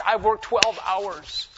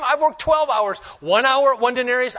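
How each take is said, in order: First: Slow, each word weighed on worked; slow emphasis. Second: Higher, louder complaint about the long day; indignant protest. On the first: Worker repeating his grievance to the master, slow heavy stress. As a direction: drag out I've worked twelve hours to drive it home. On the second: Worker hired at dawn complaining to the master, loud indignant. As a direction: fling the hours back at him. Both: Acted.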